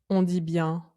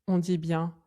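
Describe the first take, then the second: The two takes are said the same way.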